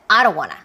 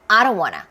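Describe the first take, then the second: First: The stress is on I, said fast. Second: The same.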